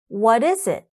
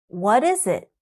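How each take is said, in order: Both takes have the same delivery.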